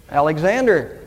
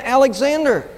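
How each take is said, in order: First: Mildly hesitant, subdued answer. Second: Higher-pitched, emphatic answer; raised-voice answer. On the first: Soldier answers the emperor at his court-martial, mildly hesitant. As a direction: answer with a touch of reluctance. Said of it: "the man said rather hesitantly". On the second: Soldier answers the emperor a second time, higher and emphatic. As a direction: give the name higher, with emphasis. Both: A narrator's reading.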